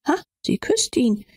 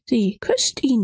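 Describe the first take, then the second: First: Said in the usual way. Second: Hushed repeat of sie küsst ihn; whispered. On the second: Acted. Else repeats it, shocked inward.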